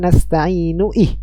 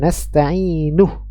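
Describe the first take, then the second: First: A separate i sound starts the next word. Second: The u vowel links straight into the next word. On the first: The speaker calls it wrong. "bukan nasta'inu ih" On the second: The speaker calls it right. "Ya nasta'inuh"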